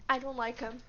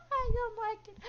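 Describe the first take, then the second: First: Said in the usual way. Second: High-pitched, amused squeal; laughing squeal. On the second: Real, not acted. Player reacts to a character's line, laughing squeal.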